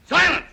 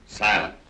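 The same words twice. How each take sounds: First: High, loud call for silence; commanding cue. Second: Said in the usual way. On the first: Pretend. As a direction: call the room to order sharply, well above normal pitch. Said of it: "when I say silence".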